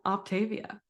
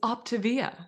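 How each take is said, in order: First: It has a k sound before the t. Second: It has a p sound before the t. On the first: The speaker calls it wrong. "not Octavia" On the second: The speaker calls it right. "it's Optavia"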